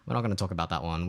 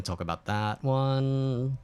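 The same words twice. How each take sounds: First: Said in the usual way. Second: Drawn out, emphatic; slowly, with mock gravity; slow and deliberate. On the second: Real, not acted.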